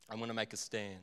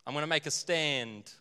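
First: Low, soft mock resolve; hushed, low self-reassurance; quiet resolve. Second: Said in the usual way. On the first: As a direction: say it under your breath, as if convincing yourself. Repeats the resolve to himself.

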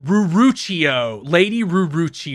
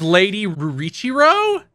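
First: "Ruruchio" sounded out slowly, ending in "-chio"; corrected name. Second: "Rurichiro" offered as a question, rising; unsure name attempt. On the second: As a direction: try "Rurichiro" with a questioning lift, ending in "-chiro". First, mistaken try at the name. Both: Real, not acted.

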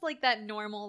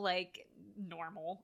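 First: Said in the usual way. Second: Air quotes. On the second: Shown as a demonstration. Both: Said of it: "I'm doing finger quotes".

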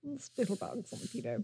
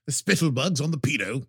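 First: Much softer, murmured repeat of the quote; quiet echo. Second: Mock character voice. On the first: Retold or imitated. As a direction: echo it under your breath. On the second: Savoring the quote in a voice.

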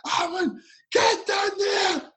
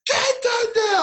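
First: Much higher, slow mock coach yell; hammed-up screaming coach. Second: Very high, louder mock coach yell; even harder hammed-up screaming coach; coach screaming again. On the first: Coach screaming at player to chase the ball, mock yell. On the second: Coach screaming at player a second time, louder mock yell. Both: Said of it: "screaming at me".

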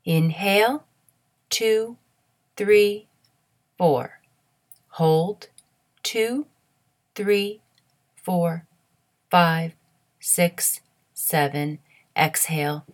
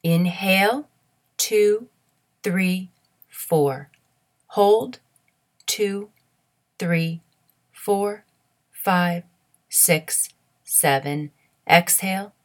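The two takes are said the same way.

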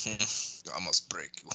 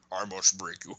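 First: Slow, low, quiet menacing boxer; Rocky IV boxer. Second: Said in the usual way. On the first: Retold or imitated. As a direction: do the cold Rocky IV fighter line. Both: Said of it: "what's his name from Rocky Four".

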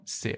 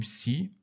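First: "س" said as "seh", with an open e; French letter name. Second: "سی" with an English-style ee vowel; wrong letter name. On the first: Teacher correcting the letter name, French-style "س". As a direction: say "س" like French C, "seh" not "see". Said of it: "و همون س". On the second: Teacher showing students what not to say, English-style "سی". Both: Shown as a demonstration.

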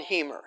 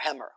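First: First vowel of Hemer as in "he"; Hemer with long E. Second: First vowel of Hemmer as in "hem"; Hemmer with short E. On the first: Lecturer recommending an author, Hemer said HEE-mer. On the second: Lecturer unsure of author's name, Hemmer said HEM-er. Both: Shown as a demonstration. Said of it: "I don't know how you pronounce it".

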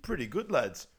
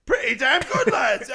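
First: Said in the usual way. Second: Very loud, high mock roar; shouted approval. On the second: Hooligan approving the song to his lads, shouted. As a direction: erupt in imitated hooligan praise. Retold praise erupting into shout.

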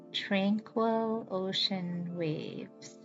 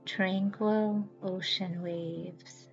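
Both takes have the same delivery.

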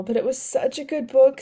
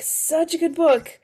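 First: Said in the usual way. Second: "Such a good book" said slowly and higher, softly, sinking on "book"; wistful repeat. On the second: Real, not acted. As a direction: linger fondly on each word of "Such a good book".

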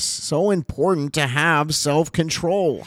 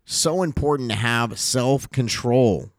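First: "so important to have self-control" higher and slower, each word leaned on; emphatic repeat. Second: Said in the usual way. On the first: Shown as a demonstration.

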